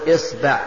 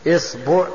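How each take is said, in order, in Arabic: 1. تبدأ الكلمة بالصائت i. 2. تبدأ الكلمة بالصائت i.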